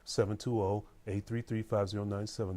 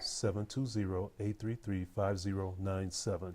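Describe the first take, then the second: First: The number is said at normal speed. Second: The number is said more slowly.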